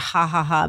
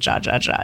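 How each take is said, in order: First: Each syllable starts with an h sound. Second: Each syllable starts with a j sound. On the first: This is how the name should properly be said. The speaker calls it right. "We should really be calling it Ha Ha Ha" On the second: This is how everyone commonly says the name. The speaker calls it wrong. "but they all pronounce it Jia Jia Jia"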